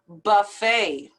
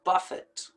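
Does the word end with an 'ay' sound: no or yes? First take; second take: yes; no. First: The word ends with an 'ay' vowel sound. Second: The word does not end with an 'ay' sound. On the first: The speaker calls it right. "It's just as if it was ending with an A sound, or A Y" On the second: The speaker calls it wrong. "and not"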